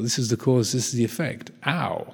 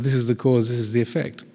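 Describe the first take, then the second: First: It is said in a hurt, pained tone. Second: It is said in a calm, neutral tone.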